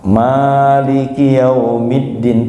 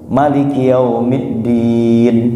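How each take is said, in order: First: The first vowel of Maliki is drawn out long. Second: The first vowel of Maliki is kept short. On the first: "itu panjang" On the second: "baca pendek"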